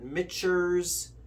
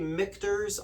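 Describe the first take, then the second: First: The name is said with a ch sound. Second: The name is said with a k-t sound. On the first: This is how others say it. "I've heard Mitchers" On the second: This is how the speaker says it. "I say Michter's"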